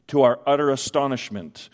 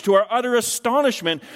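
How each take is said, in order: First: Said in the usual way. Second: "astonishment" higher, with falling stress; emphatic stress. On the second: Shown as a demonstration. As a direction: lift "To our utter astonishment" and land hard on "astonishment".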